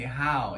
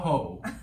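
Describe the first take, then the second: First: The name rhymes with "cow". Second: The name rhymes with "go". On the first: The speaker calls it right. "You say how" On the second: The speaker calls it wrong. "I've been saying it wrong for like fifteen years now"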